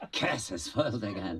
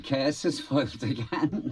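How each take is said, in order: First: Villain line said through a laugh. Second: High, hammed-up villain line; panto villain. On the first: Acted. Actor repeating his favourite line, laughing. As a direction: laugh as you say it. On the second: Actor savouring a panto villain's line, high and hammy. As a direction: ham it up like a pantomime baddie. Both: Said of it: "I like saying".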